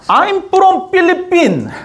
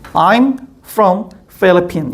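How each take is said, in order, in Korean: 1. Philippines는 P 소리로 시작해요. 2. Philippines는 F 소리로 시작해요. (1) "못 알아들어요" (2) "이래야 알아듣더라고요"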